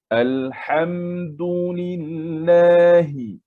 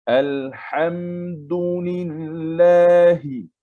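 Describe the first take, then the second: The two takes are said the same way.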